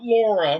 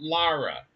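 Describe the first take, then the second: First: The name is said as Laura. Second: The name is said as Lara. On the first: The speaker calls it wrong. "Not Laura" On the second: The speaker calls it right. "but Lara"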